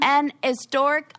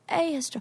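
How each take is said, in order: First: The article before historic has an n sound. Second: The article before historic has no n sound. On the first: The speaker calls it wrong. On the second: The speaker calls it right.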